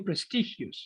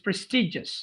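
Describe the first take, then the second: First: The middle consonant is not a 'j' sound. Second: The middle consonant is a 'j' sound. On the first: The speaker calls it wrong. "You told me prestigious" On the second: The speaker calls it right. "The pronunciation is prestigious with j"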